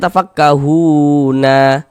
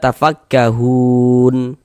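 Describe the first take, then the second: First: The word ends with an added a vowel. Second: The word ends on a bare n sound. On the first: The final letter is voweled before stopping. The speaker calls it wrong. "Jangan kita dibaca tafakkahuna baru berwakaf" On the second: The reader stops at this word. The speaker calls it right. "kalau kita berwakaf di huruf nun, kita baca tafakkahun"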